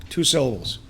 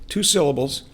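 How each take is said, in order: No difference in how they are said.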